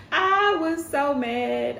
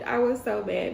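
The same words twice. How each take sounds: First: "I was so mad" stretched slow and high; drawn-out exasperation. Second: Said in the usual way. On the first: Real, not acted. Exasperated recap of being hurt.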